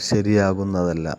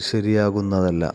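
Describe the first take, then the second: Both takes have the same delivery.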